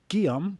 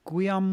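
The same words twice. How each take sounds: First: The name begins with a plain g sound. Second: The name begins with a gw sound. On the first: The speaker calls it right. "It's Guillaume" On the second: The speaker calls it wrong. "And I just said it wrong. I said Gu"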